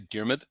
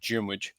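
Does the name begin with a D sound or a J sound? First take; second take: D; J. First: The name begins with a plain D sound. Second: The name begins with a J-like sound. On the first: This is the toned-down everyday pronunciation. "I kind of naturally tone it down a little bit" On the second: This is the Irish pronunciation. "The D has a bit more of like a J sound"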